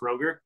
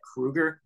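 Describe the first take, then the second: First: The first vowel is an 'oh' sound. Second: The first vowel is an 'oo' sound. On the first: The speaker calls it wrong. "not Kroger" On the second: The speaker calls it right. "his name's actually [name]"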